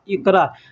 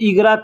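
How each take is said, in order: First: The middle consonant is a deep throaty q. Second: The middle consonant is a voiced g. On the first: This is how the word is written. "अरबी में लिखावट होता है इक़रा" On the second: This is how Arabic speakers actually say it. "अरबी के लोग ... इग़रा क्यों कहते हैं"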